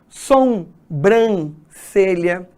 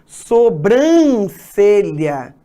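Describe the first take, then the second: First: An extra nasal sound comes before the b. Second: No extra nasal sound comes before the b. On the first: The speaker calls it wrong. "Isso é muito comum de a gente encontrar as pessoas falando" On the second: The speaker calls it right. "E aí o correto é"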